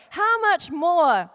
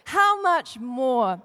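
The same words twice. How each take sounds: First: Very slow, how stretched; slow emphasis. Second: The Lord speaking slowly; slow solemn. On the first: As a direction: draw out how much more. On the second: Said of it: "repeated as the Lord's words". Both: Shown as a demonstration.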